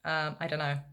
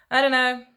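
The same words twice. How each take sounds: First: Said in the usual way. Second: Suddenly louder and higher I don't know; a louder, exasperated I don't know; exasperated outburst. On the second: Real, not acted. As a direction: blurt it out, fed up. Unsure, repeating himself.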